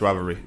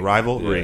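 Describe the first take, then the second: First: The word is said quickly and runs together. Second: The word is said slowly and carefully. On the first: The speaker calls it wrong. "you can't say it fast" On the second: The speaker calls it right. "You gotta kind of say it slow"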